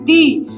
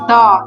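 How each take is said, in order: First: The vowel is a long 'ee'. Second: The vowel is a short, weak 'uh'. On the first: The next word starts with a vowel sound. "अगर उच्चारण vowel से होता है तो दी" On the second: The next word starts with a consonant sound. "Consonant, तो उसके उच्चारण में द बोलते हैं"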